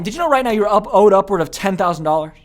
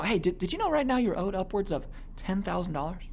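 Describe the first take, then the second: First: Said in the usual way. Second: Soft, confidential sales question; lowered voice. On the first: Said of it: "So instead of saying". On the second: Shown as a demonstration. Salesman bringing a prospect in, lowered voice. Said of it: "I'm kind of lowering my voice level".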